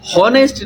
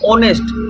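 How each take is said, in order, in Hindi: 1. यह शब्द h की आवाज़ से शुरू होता है। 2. यह शब्द स्वर की आवाज़ से शुरू होता है। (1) "हॉनेस्ट नहीं" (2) "ओ का आवाज दे रहा है"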